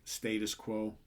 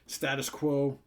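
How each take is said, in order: First: It is said with a British pronunciation. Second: It is said with an American pronunciation. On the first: The speaker calls it right. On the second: The speaker calls it wrong. "I always want to divert back to the way us Americans say it"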